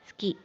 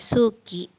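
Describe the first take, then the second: First: The u after the s is dropped. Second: The u after the s is fully voiced. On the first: The speaker calls it right. "tapi ski" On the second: The speaker calls it wrong. "bukan dibaca suki"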